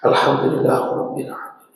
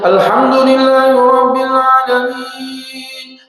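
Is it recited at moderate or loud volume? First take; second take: moderate; loud. First: It is recited at a moderate, audible volume. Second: It is recited loudly.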